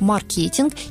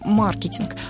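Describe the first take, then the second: First: The stress is not on the first syllable. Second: The stress is on the first syllable. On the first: This reflects the domestic, officially accepted usage. "принято официальное перевод и трактовка слова «маркетинг» именно как «маркетинг»" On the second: This reflects learning from foreign courses and literature. "начали говорить на английский манер маркетинг"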